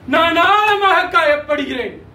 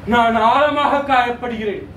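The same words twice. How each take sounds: First: Raised, emphatic declaration of hurt; insistent hurt. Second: Lower-pitched, subdued declaration of hurt; deeply hurt. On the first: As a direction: press the pain home more forcefully. Same hurt, repeated more forcefully. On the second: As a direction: state a deep wound in a lowered voice. Declaration of hurt, first take. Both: Acted.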